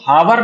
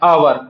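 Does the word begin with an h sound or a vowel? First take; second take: h sound; vowel. First: The word begins with an h sound. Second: The word begins directly with a vowel. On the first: The speaker calls it wrong. "हावर न पढ़ के" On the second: The speaker calls it right. "आवर पढ़ा जाता है"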